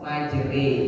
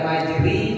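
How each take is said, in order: First: The word ends in an e vowel. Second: The word ends in an i vowel. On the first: The speaker calls it right. "memiringkan bunyi fathah kepada kasroh" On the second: The speaker calls it wrong. "Bukan majri"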